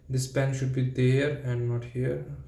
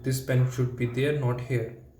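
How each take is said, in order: First: It is said quietly and unconfidently. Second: It is said clearly and confidently.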